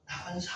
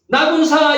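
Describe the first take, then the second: First: The name is said quietly and gently. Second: The name is shouted loudly.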